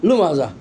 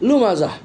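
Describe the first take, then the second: No difference in how they are said.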